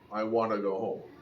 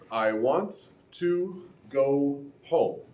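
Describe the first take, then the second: First: Want to is reduced even further than blending. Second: Want and to are said separately, both t's. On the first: "Further reduction could include" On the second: "Spoken in isolation, that is fine"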